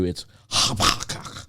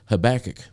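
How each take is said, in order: First: The name is said with an attempted Hebrew pronunciation. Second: The name is said with an English pronunciation. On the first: The speaker calls it wrong. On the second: The speaker calls it right.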